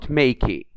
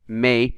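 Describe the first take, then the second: First: An extra vowel is heard after the k. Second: The word ends on the k sound. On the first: The speaker calls it wrong. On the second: The speaker calls it right.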